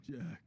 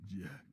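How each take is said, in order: First: Calling out. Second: Said in the usual way. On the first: Acted. Calling again, louder.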